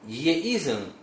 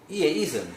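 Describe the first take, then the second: First: Only the first 이 uses the number-two pitch. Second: Only the second 이 uses the number-two pitch. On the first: It means two to the power e. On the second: It means e to the power two.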